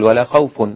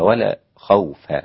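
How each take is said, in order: First: The last word ends with a nasal -un. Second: The last word ends with a bare -a. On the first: "مش هيقول" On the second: "فتح الفاء"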